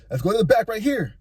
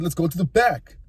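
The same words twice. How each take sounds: First: Higher, light echo of his words; wife's voice. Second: Said in the usual way. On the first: Retold or imitated. Wife echoing the guy, higher and teasing. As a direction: lift it up into her teasing voice. Wife echoes guy's line.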